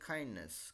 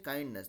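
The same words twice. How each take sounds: First: The first k has a puff of breath. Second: The first k has no puff of breath. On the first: "दे से काइंडनेस, मतलब एक H का tinge होता है" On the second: "they don't say काइंडनेस"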